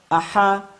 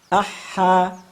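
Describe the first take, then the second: First: The doubled h is cut short. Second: The doubled h is held for its full length. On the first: The speaker calls it wrong. "bukan aha, ahi, ahu, sehingga pengucapan demikian salah" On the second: The speaker calls it right. "Yang kami maksud aha, nah, seperti ritme itu ya"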